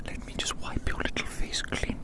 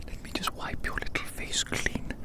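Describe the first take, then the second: No difference in how they are said.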